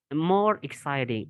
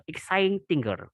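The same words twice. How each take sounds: First: Said in the usual way. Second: Exciting-er said as a deliberate wrong example; wrong form. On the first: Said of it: "not exciting-er". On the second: Shown as a demonstration. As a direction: give exciting-er as the form to avoid. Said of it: "itu salah".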